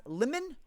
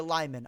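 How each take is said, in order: First: "lemon" with a short first vowel. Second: "Lyman" with first syllable like "lie"; long I. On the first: Streamer asking how a viewer's name is pronounced, short vowel in "lemon". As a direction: say "lemon" like the fruit. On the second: Streamer asking how a viewer's name is pronounced, long I in "Lyman". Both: Shown as a demonstration. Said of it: "Is it pronounced lemon or Lyman?".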